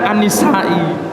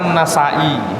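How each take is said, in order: First: The vowel after the N is 'i'. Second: The vowel after the N is 'a'. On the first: It relates the name to women. The speaker calls it wrong. "ada yang membaca An-Nisai, nisbatan kepada perempuan" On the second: It names the famous hadith scholar. The speaker calls it right. "ini benar An-Nasai"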